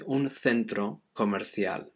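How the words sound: The c in centro sounds like th.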